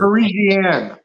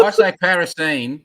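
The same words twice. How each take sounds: First: Parisian said pa-REE-zhee-an; Canadian pronunciation. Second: Parisian said PA-ris-ian; Australian pronunciation. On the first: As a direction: Parisian with a zh sound, stress on REE. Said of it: "figure out how to say". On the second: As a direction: Parisian with stress on PA, short a. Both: Shown as a demonstration.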